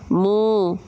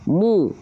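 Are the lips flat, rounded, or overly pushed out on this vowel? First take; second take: flat; rounded. First: The vowel is said without rounding the lips. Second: The vowel is said with lips rounded forward. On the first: The speaker calls it wrong. "jangan cuma mu" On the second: The speaker calls it right. "Muncung mulutnya"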